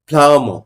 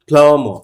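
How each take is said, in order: Both takes have the same delivery.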